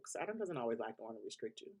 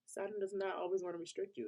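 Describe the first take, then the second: First: Said in the usual way. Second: "does not" lifted much higher for emphasis; emphatic correction, "not" pitched up; stress on not. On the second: Real, not acted. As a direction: hit "not" high to set her point right. Restates to correct herself.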